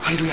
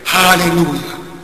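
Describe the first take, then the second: First: It is said flatly and mechanically, without feeling. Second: It is said with warmth and heartfelt feeling. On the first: The words are repeated without any thought behind them. The speaker calls it wrong. "It's not like mechanic, huh?" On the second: The speaker means the praise sincerely. The speaker calls it right. "Your hearts have to be there"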